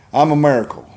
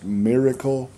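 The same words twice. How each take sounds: First: "miracle" said as Southern "merracle"; Southern pronunciation. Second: "miracle" with a short ih, "mirracle"; correct English pronunciation. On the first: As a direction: say "miracle" with an eh in the first syllable, "merracle". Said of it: "it will be more correctly Englishly pronounced". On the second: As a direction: carefully say "miracle" as standard "MIR-uh-kul". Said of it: "more correctly Englishly pronounced". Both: Shown as a demonstration.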